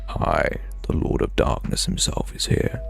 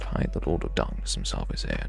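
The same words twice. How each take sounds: First: It is said in a dramatic put-on voice. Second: It is said in his ordinary voice.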